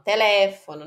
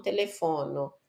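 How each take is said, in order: First: Telefono stressed on the second syllable, tE-LE-fono; correct Italian stress. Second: Telefono stressed like Portuguese telefone, te-le-FO-no; the mistaken reading of telefono; wrong Portuguese stress. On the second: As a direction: telefono as Brazilians misread it. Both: Shown as a demonstration. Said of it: "não telefono".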